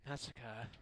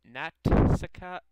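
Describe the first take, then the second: First: Said in the usual way. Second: "Natsuka" loud and slow, broken after "Nat"; "Natsuka" split into Nat-suka, drawn out; careful name attempt. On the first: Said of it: "that's not how you do it". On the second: Shown as a demonstration. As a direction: sound out the T in "Natsuka" forcefully. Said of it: "think I'm saying your name right".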